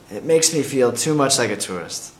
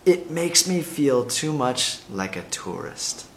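First: It is said at normal speed. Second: It is said very slowly.

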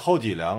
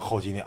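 First: The last syllable starts with an L sound. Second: The last syllable starts with an N sound.

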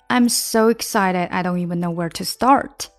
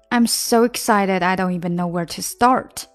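The two takes are said the same way.

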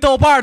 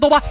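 First: The word ends with a retroflex r sound. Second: The word ends without a retroflex r sound. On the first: The speaker calls it right. "记住发音，豆瓣儿，瓣儿。" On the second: The speaker calls it wrong. "豆瓣儿不是豆瓣啊"

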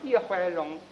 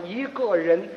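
First: It is said in a nasal Shanxi accent. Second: It is said in standard Mandarin.

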